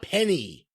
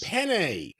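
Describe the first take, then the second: First: The word ends with an 'ee' vowel sound. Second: The word ends with an 'ay' vowel sound. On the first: The speaker calls it wrong. "not penny" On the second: The speaker calls it right. "Penne, not penny"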